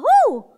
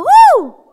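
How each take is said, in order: First: Higher cheerful woo. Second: High, loud shouted woo. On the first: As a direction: let out a bright woo. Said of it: "Sabi mo nga". (masiglang woo) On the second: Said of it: "Sige, lakasan mo". (malakas na sigaw na woo) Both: Shown as a demonstration.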